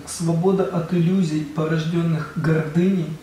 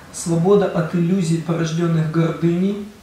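The two takes are said the same way.

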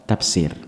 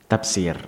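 The two takes are said the same way.

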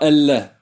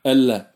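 Both takes have the same delivery.

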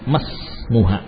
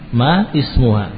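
First: The words are joined straight into the s sound. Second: The two words are said as separate words.

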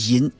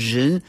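First: The word is said in Shandong dialect style. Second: The word is said in classical reading style. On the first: This is how people in Weihai and Shandong say it. "像威海山东都念银" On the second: This is how it is read in this classical tradition. "这我们是念人"

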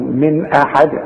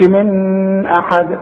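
First: The n is pronounced clearly without nasal hum. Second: The n is held with a nasal hum. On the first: The speaker calls it right. "اقول من احد خلاص" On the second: The speaker calls it wrong. "ما اقولش من احد"

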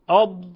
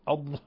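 First: The final consonant is released without audible breath. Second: The final consonant is released with audible breath. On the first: The speaker calls it right. "لا، أض أض ضاء" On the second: The speaker calls it wrong. "يهمس الضاد ... يخرج نفسا"

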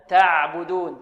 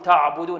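First: The ayn syllable is light and thin. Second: The ayn syllable is heavy and thick. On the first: The speaker calls it right. "بل تعبدون" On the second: The speaker calls it wrong. "ويفخم العين كذلك"

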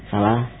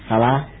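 The two takes are said the same way.

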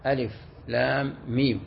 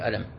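First: Each letter name is spoken separately. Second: The letters are joined into one word. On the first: The speaker calls it right. "تقرأ بالتقطيع" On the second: The speaker calls it wrong. "ما تكون ألف لام ميم تقول ألم"

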